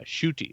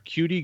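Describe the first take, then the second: First: The name begins with a 'sh' sound. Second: The name begins with a 'k' sound. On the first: The speaker calls it right. "S H O O T I" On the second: The speaker calls it wrong. "See if I can get it right here"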